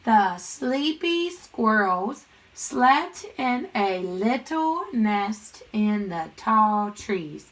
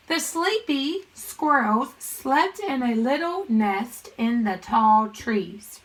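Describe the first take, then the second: First: Very slow, word-by-word reading; stretched-out read-along for a class; read-along pace. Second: Slow, measured teacher read-aloud; deliberate model reading. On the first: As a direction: draw out each word so pupils can join in. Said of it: "Read it with me". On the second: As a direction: read it slowly and clearly to young pupils. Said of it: "I'm gonna read the sentence". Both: Shown as a demonstration.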